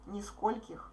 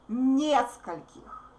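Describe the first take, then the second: First: The stress is on the second syllable. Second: The stress is on the first syllable. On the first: The speaker calls it wrong. "don't make o stress. Otherwise, it will sound нискольких" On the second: The speaker calls it right. "the stressed vowel is ye"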